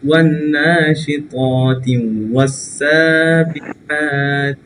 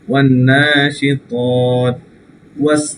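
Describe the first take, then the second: First: Both words run together without any break. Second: It stops after the first word, then restarts. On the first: "একসাথে যদি যান, নিঃশ্বাস না থাকে" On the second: "এখানে যদি আপনি থেমে আসেন"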